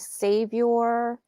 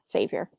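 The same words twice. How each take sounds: First: The word is said in an odd put-on accent. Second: The word is said in an ordinary accent. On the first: The speaker calls it wrong. "I don't pronounce it that way" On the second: The speaker calls it right. "I normally say"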